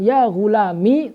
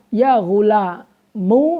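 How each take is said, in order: First: The word ends in a short i vowel. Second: The word ends in a u vowel. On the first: "tanpa ya" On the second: "dengan dibaca domah"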